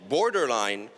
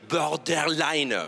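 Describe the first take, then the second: First: Borderline said the English way, bor-der-line with an English r. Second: Borderline said the French way, slow, bor-dèr-line with a French r. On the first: Borderline à l'anglaise, pour se la péter. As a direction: give borderline its full English sound. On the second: For French friends, borderline said slowly the French way. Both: Shown as a demonstration. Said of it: "je dis borderline".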